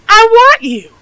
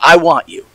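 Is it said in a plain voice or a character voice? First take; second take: character voice; plain voice. First: It is said in a put-on Sydney voice. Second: It is said in the reader's own plain voice.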